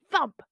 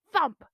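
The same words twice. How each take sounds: The two takes are said the same way.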